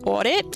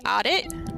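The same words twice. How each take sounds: First: It is said in a New York accent. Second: It is said so it sounds like 'a date'. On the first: "because I'm from New York originally, and, um, you know, I pronounce it audit" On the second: "but maybe other people that say audit"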